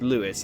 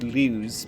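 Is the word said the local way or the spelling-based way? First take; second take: local; spelling-based. First: The word is said the way locals say it. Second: The word is said the way its spelling suggests. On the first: The speaker calls it right. "but it's Lewes, actually" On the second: The speaker calls it wrong. "it looks as though it should be pronounced Lewes"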